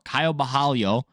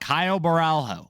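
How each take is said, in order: First: The name is said with a native pronunciation. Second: The name is said with an anglicized pronunciation. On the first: The speaker calls it right. "if you want to say it correctly" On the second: The speaker calls it wrong. "but I don't"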